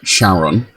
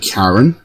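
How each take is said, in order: First: The name begins with an SH sound. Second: The name begins with a K sound. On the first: This is how someone else pronounced it. "she pronounced it Sharon" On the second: This is the speaker's own preferred pronunciation. "I want to say Karen"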